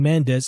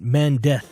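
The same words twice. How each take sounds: First: The final z is said as an s sound. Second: The final z is said as a th sound. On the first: "instead of saying" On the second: "I say it with a T H sound"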